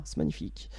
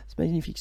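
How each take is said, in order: First: Hushed awe; whispering. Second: Said in the usual way. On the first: Real, not acted. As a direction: breathe the words out. Whispered admiration of the cards.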